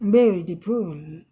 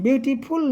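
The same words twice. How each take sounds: First: The stress falls on the first syllable. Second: The stress falls on the last syllable. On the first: The speaker calls it right. "ब्यू पर हमारी pitch ज़्यादा गई है" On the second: The speaker calls it wrong. "फुल नहीं, beautiful नहीं"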